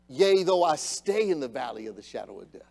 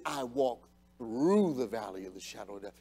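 First: Said in the usual way. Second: Through leaned on, low and soft; quoting the psalm, stressing through. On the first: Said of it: "It is not". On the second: Shown as a demonstration. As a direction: land on the word through. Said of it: "It is".

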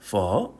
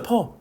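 First: 퍼 dropped low, then rising like a question; learner's tonal 퍼. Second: 퍼 high, without dip or rise; untrained toneless 퍼. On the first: Shown as a demonstration. Teacher showing how learners read it, tonal 퍼. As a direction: dip deep on 퍼 and curl it up. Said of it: "배우신 분들은 어떻게 읽는다". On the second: Acted. Teacher mimicking non-learners, toneless 퍼. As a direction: say 퍼 as an ordinary Korean syllable. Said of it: "베트남을 안 배우신 분들은".

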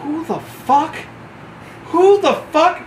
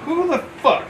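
First: Sergeant major's angry echo. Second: High, sharp indignant question; recruit's startled challenge. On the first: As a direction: throw the question back at him, seething. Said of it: "Sergeant Major Booker goes". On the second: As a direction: snap it at a stranger. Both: Retold or imitated.

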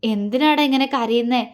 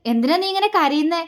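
First: Tender, pained question; subdued concern, close to tears; faltering voice. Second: Higher, exasperated demand; irritated at someone crying; cross, rising question; angry question. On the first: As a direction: gently console someone crying. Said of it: "അവൻ്റെ സ്വരമിടറി". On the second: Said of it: "അവൻ ദേഷ്യത്തോടെ ചോദിച്ചു". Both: A narrator's reading.

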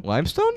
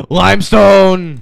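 First: "Limestone" with a rising question tune. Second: Loud, high, drawn-out cry; excited exclamation. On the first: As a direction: ask "Limestone" lightly, pitch going up. Checking what the rock holds. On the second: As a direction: stretch it out in a falling shout. Exclaims on finding the rock. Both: Real, not acted.

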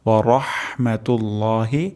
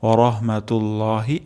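First: রাহমাতুল্লাহি with a clearly sounded h. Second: রাহমাতুল্লাহি with the h blurred away; wrong soft h. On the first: Teacher shows the correct clear h. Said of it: "হাটি সুস্পষ্ট উচ্চারণ হবে". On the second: Teacher shows the wrong way of reciting. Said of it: "এমনটি হবে না". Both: Shown as a demonstration.

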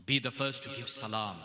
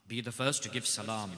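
Both takes have the same delivery.

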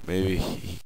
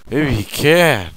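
First: Said in the usual way. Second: Sudden realisation. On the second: Real, not acted.

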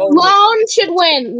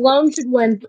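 First: Drawn out. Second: Said in the usual way. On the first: Shown as a demonstration.

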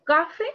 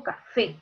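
First: "Café" misstressed as CA-fe, first syllable high and loud; stress on first syllable. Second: "café" with the weight on final FÉ; stress on last syllable. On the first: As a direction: say "Café" wrongly, punching CA instead of fé. ("Café" con la fuerza en CA: CÁ-fe) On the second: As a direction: say "café" as ca-FÉ, landing on the ending. ("café" con la fuerza al final: ca-FÉ) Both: Shown as a demonstration. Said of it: "¿cómo digo? ¿Café o digo café?".

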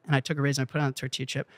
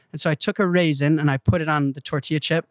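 First: Rattled off fast and much softer, "and I took a raisin and I put it on the tortilla chip"; quick soft repeat. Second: Said in the usual way. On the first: Shown as a demonstration. Repeating the raisin step to the bankers, fast and soft. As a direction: rush it under the breath as an echo. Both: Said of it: "repeats the line".

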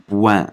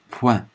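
First: "puan" with a voiced b, like "buan"; wrongly voiced first consonant. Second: "puan" with a clean voiceless p; unvoiced first consonant. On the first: Teacher warns learners not to voice "puan", wrongly voiced b. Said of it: "大家千万不要读puan". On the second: Teacher models the word for learners, "puan" with unvoiced p. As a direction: keep the p of "puan" voiceless, gliding into a nasal ending. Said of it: "这儿是不用浊化的". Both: Shown as a demonstration.

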